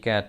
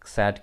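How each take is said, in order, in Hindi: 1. यह शब्द K ध्वनि से शुरू होता है। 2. यह शब्द S ध्वनि से शुरू होता है। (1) "सी ए टी कैट" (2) "इसको सैट क्यों नहीं बोलते हैं"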